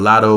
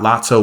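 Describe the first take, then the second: First: The middle consonant is a soft D sound. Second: The middle consonant is a clear T sound. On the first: "but Lotto with a D" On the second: "not Lotto with the T"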